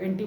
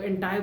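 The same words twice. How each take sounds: First: "एंटी" rhyming with "auntie"; "एंटी" with a final long ee; "anti" pronunciation. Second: "एंटाई" with a final eye sound; "एंटाई", second syllable as "tie"; "antai" pronunciation. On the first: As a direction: say "एंटी" ending in an ee sound. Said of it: "कई लोग एंटी बोलते हैं". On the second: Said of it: "कई लोग एंटाई बोलते हैं". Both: Shown as a demonstration.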